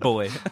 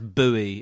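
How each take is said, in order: First: It is said the way the English say it. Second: It is said the way other countries say it. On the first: "But we pronounce it boy" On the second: "I believe it's pronounced buoy in other countries"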